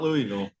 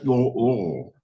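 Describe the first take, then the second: First: The word is said clearly, with each syllable sounded out. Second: The word is swallowed, sounding stuck in the throat. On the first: This is how outsiders say it. The speaker calls it wrong. "No, not Louisville" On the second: This is how locals say it. The speaker calls it right. "Like you, like something stuck in your throat"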